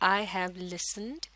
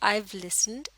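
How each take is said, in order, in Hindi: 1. 'have' पूरा बोला जाता है। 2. 'have' I के साथ जुड़कर छोटा हो जाता है।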